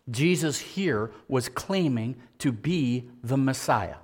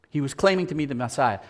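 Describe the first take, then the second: First: Slow, weighty, each word laid down; slow emphatic statement. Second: Fast, brisk repeat of the claim; quick restatement. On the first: Preacher slowing down to press the claim home. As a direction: drag it out so it lands. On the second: Preacher quickly repeating the point to the congregation. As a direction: rattle it off as a quick recap. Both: Shown as a demonstration.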